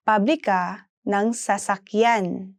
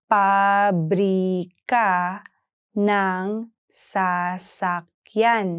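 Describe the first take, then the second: First: Said in the usual way. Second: "Pabrika ng sasakyan" in long, separate syllables; slow pronunciation model. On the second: Shown as a demonstration. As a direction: stretch it out for learners to follow. Teacher breaks phrase down slowly.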